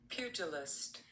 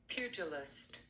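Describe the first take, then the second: Both takes have the same delivery.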